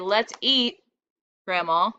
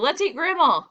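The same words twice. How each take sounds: First: There is a short pause before grandma. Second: It runs on with no pause before grandma.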